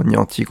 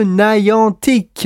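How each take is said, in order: First: "Niantic" with plain French sounds; French pronunciation. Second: "Niantic" drawn out with English sounds; English pronunciation. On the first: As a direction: say "Niantic" the French way, nee-an-teek. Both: Shown as a demonstration. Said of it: "On le dit à la française quand même".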